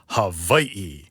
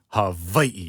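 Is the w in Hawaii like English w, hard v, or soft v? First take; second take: hard v; hard v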